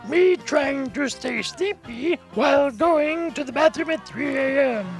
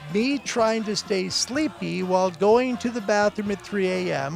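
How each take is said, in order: First: It is read in a put-on old voice. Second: It is read in a natural voice.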